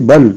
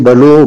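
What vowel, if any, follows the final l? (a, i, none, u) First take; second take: none; u. First: The word ends on the l, with no vowel. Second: The l is followed by an u vowel. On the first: The speaker calls it right. "mais on a lit bal" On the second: The speaker calls it wrong. "On n'a pas lit balo"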